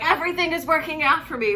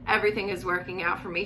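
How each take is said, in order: First: It is said with lots of energy. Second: It is said plainly, without energy.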